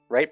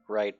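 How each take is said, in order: First: It is said with lively, varied pitch. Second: It is said in a flat monotone.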